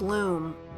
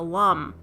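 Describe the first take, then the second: First: The vowel is a long oo sound. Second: The vowel is not a long oo sound. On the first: The speaker calls it right. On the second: The speaker calls it wrong.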